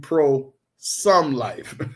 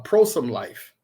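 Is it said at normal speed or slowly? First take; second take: slowly; normal speed. First: It is said very slowly. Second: It is said at normal speed.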